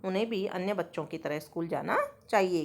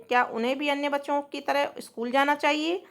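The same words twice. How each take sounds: First: Lower, settled statement, falling on जाना चाहिए; answer tune. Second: Rising question, pitched higher, ending up on चाहिए; question tune. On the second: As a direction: read it as a question, voice climbing on जाना चाहिए. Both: Shown as a demonstration. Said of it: "तो हाँ".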